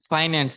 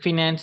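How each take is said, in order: First: The first syllable has the vowel of 'eye'. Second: The first syllable has the vowel of 'in'. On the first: The speaker calls it right. "பிரிட்டிஷ்ல அதை சொல்றது ஃபைனான்ஸ் என்று" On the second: The speaker calls it wrong. "American broken pronunciation தான் ஃபினான்ஸ்"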